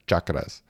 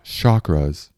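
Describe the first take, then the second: First: The word begins with a 'ch' sound. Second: The word does not begin with a 'ch' sound. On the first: The speaker calls it right. "it's like chimney" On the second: The speaker calls it wrong. "Not chakras"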